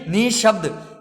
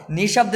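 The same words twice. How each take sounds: First: निशब्द as "nih-shabd", first syllable held; correct visarga form. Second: निशब्द with short ni running into shabd; no breath after "ni" in निशब्द; wrong form. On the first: Teacher showing how to read it, निशब्द as "nih-shabd". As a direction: lengthen and breathe after "ni" in निशब्द. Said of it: "इस प्रकार से इसे पढ़ा जाएगा". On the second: Teacher rejecting the mistake, निशब्द with short ni. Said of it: "नहीं". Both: Shown as a demonstration.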